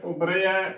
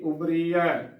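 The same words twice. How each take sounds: First: ਉਬਰਿਆ with "re" before "ya"; correct sihari sound. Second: ਉਬਰੀਆ with "ree" before "ya"; wrong bihari sound. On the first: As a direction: say ਉਬਰਿਆ as "ubre-ya". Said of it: "ਉਬਰਿਆ ਉਚਾਰਨ ਕਰਨਾ". (ਉਬਰਿਆ ਵਿੱਚ "ਰੇ" ਦੀ ਆਵਾਜ਼) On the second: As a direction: say ਉਬਰੀਆ as "ubree-ya". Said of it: "ਉਬਰੀਆ ਗਲਤ ਉਚਾਰਨ ਹੋਵੇਗਾ". (ਉਬਰੀਆ ਵਿੱਚ "ਰੀ" ਦੀ ਆਵਾਜ਼) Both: Shown as a demonstration.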